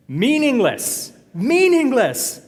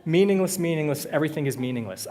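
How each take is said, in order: First: Loud, high, long-drawn-out cry; dramatic proclamation. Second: Said in the usual way. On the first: Acted. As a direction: proclaim MEANINGLESS slowly, stretched and booming. Dramatic reading of the verse.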